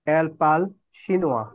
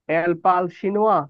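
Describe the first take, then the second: First: এল পাল শিনোয়া falling at the end, as a statement; full-stop statement intonation. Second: এল পাল শিনোয়া lifted at the end as a question; questioning intonation. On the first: Teacher reads the sentence with no question mark, statement intonation. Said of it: "full stop.". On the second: Teacher shows students a question without inversion, questioning intonation. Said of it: "গলার ইন্টোনেশনটা আমরা প্রশ্নবোধক করে দিব". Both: Shown as a demonstration.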